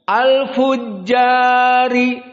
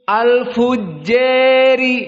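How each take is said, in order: First: The long vowel is a fully open a. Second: The long vowel is raised close to e. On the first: "Kita baca dari qiraah Hafs" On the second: "kemudian qiraah Al-Kisai"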